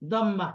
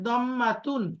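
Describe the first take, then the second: First: The word ends with a soft 'h' sound. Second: The word ends with a full 'tun' syllable. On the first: "অক্ফ করে বলি, দম্মাহ বলি" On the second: "দম্মাতুন শব্দটা কি?"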